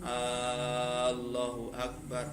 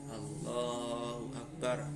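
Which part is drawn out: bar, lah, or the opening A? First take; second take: opening A; lah. First: The opening A sound is drawn out long. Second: The lah syllable is drawn out long. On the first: The speaker calls it wrong. "hamzahnya a-nya itu tidak boleh dipanjangkan" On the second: The speaker calls it right. "Yang boleh dipanjangkan itu lafaz lamnya"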